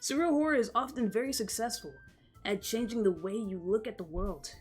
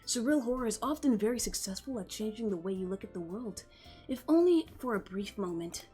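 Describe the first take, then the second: First: It is said in the reader's own voice. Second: It is said in a put-on character voice.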